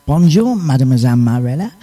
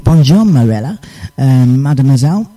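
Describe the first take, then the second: First: "Bonjour" with a nasal French "bon" and a rising end; a careful go at French for "Bonjour, mademoiselle Marella"; trying a proper French accent on "mademoiselle"; better French. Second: "Bonjour" said flatly in an English way, like "bon-joor"; throwaway French greeting in a plain English accent; sloppy French. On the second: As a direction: careless English-sounding "Bonjour, Marella" and "mademoiselle". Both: Shown as a demonstration. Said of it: "I should say that a bit better".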